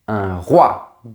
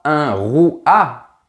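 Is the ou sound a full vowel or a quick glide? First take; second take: quick glide; full vowel. First: The ou is a quick glide into the vowel. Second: The ou is a full, separate vowel. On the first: The speaker calls it right. "on dit ... prononcé très rapidement" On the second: The speaker calls it wrong. "On ne dit pas"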